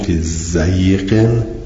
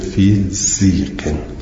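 First: The first syllable has the vowel 'ay'. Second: The first syllable has the vowel 'ee'. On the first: This is the reading most reciters use. "بقیه به فتح زاد خوندند" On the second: This is one reciter's reading. "ابن کثیر به تنهایی خونده"

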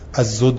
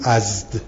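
First: A vowel sounds between the last two consonants. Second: The last two consonants come together without a vowel. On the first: "این زمه رو بردارید برای تخفیف" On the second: "از زود میگیم ازد"

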